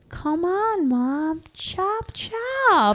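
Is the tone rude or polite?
polite. It is said in a gentler, polite tone.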